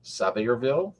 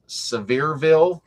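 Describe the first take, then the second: First: "Sevierville" as SAV-er-vil, asked with a rise; questioning "Sevierville", middle reduced to "ver"; alternative pronunciation. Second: "Sevierville" as suh-VEER-vil, slow and higher; trial pronunciation. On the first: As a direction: try "Sevierville" with a short a up front. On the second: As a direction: stretch "Sevierville" with VEER stressed, first vowel weak. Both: Shown as a demonstration. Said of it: "tell me if I'm pronouncing this right".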